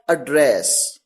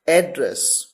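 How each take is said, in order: First: एड्रेस said as the verb, weak first vowel, stress on the second syllable, ad-DRESS; verb pronunciation. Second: एड्रेस said as the noun, stress on the first syllable, AD-dress; noun pronunciation. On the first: Teacher showing students the verb एड्रेस: second-syllable stress. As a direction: say एड्रेस with the weight on DRESS, as in to speak to someone. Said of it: "यहां पर इसे कैसे pronounce किया गया?".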